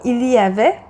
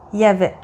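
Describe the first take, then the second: First: The L sound is pronounced. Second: The L sound is dropped. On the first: "on ne dit pas il y avait" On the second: "on dit il y avait"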